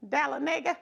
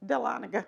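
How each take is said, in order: First: Dahlonega said as tal-uh-NAY-ga, stress on the third syllable; mispronounced place name. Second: Dahlonega said as tuh-LON-uh-ga, stress on the second syllable; corrected place name. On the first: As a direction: trip over Dahlonega, say it wrong. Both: Real, not acted. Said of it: "my bad".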